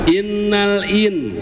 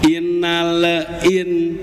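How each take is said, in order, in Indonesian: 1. Huruf L tersambung dengan halus ke bunyi berikutnya. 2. Huruf L dilepas dengan sedikit gema di awal. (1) "Lepas saat bersamaan" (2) "lamnya dilepas sebelum huruf hamzahnya itu dibaca"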